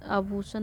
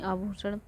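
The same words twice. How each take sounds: First: आभूषण without the retroflex ending; colloquial आभूषण. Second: आभूषण as a careful Sanskrit form; corrected आभूषण. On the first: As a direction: end आभूषण on a plain dental n. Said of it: "नहीं". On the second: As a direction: end आभूषण on a retroflex ण. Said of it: "नहीं आभूषण". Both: Shown as a demonstration.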